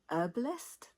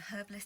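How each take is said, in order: First: The word begins without an H sound. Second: The word begins with an audible H sound. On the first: This is the American way of saying it. "I've heard Americans say herbalist. They don't pronounce the H" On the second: This is the British way of saying it. "the way we do in the U K"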